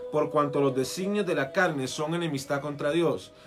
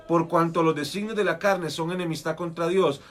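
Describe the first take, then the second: Both takes have the same delivery.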